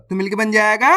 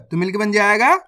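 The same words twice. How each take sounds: The two takes are said the same way.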